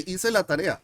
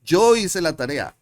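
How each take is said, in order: First: Said in the usual way. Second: Loud, stretched "Yo" at the start; stress on Yo. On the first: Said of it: "I can say". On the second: Shown as a demonstration. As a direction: punch "Yo" to claim the action. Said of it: "to make emphasis on that".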